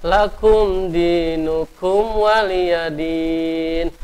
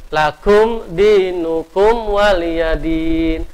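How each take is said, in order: No difference in how they are said.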